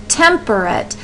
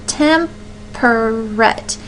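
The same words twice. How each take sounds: First: Said in the usual way. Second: "temperate" drawn out slowly in three separate syllables; slow teacherly breakdown of "temperate". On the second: Shown as a demonstration. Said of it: "It has three syllables in it".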